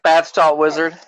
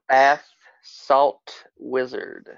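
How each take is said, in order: First: It is said at normal speed. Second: It is said slowly.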